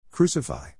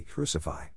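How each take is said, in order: First: Crucify cried higher and a touch stronger; frenzied shout. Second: Said in the usual way. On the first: A narrator's reading. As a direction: push the second Crucify up like a crowd. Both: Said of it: "they shouted in a frenzy".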